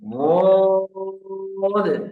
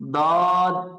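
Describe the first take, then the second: First: It sounds heavy, from the sides of the tongue. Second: It sounds like a light d, tongue tip forward. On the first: The speaker calls it right. "বদটা কিন্তু মোটা" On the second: The speaker calls it wrong. "আপনি সামনে লাগাই দিচ্ছেন এখানে"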